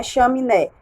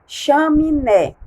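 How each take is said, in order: First: Said in the usual way. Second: Chaminé said slowly and a bit higher, each syllable clear; chaminé said slowly and plainly for children; slow clear word. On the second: Shown as a demonstration. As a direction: draw out chaminé for the class. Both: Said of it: "Como é que nós vamos pintar chaminé?".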